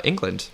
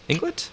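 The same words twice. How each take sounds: First: Said in the usual way. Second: England? rising sharply higher, softer, as a question; playful disbelieving England?; surprised echo. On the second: Real, not acted. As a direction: echo England? in light amazement. Echoes the place with surprise.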